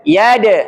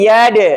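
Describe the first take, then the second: The two takes are said the same way.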